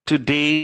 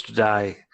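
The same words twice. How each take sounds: First: Said in the usual way. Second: "to die" for today, vowel opened to "eye"; Australian today. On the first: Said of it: "that's to die". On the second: Shown as a demonstration. Teacher contrasting Australian vowel, today said "to die". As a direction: turn the end of today into "to die". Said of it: "a diversion is that".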